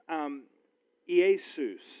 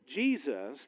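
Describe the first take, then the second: First: The name is pronounced the Greek way. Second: The name is pronounced the English way. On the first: This is the form written in the Greek New Testament. "that's a basic pronunciation. That's the Greek word" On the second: This is the form read in English Bibles. "that name, is an English pronunciation"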